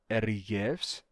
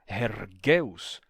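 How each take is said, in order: First: The middle consonant is a palatal y-like fricative. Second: The middle consonant is a hard g stop. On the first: This is the later, modern-style reading. "com o rama fricativo e palatalizado" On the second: This is the classical Attic reading. "com a pronúncia erasmiana, isso daqui seria um ergueus"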